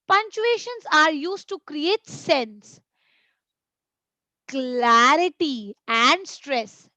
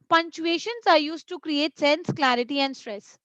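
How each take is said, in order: First: Short pauses separate the three listed words. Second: The three listed words run together without pauses. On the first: The speaker calls it right. "when I was speaking, I was giving a pause in between" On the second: The speaker calls it wrong. "what if I read it like this? No"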